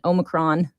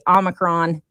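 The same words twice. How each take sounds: First: The word is said in a British way. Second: The word is said in an American way. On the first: "Omicron would be less" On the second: "I would say Omicron would be American"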